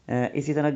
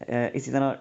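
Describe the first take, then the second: No difference in how they are said.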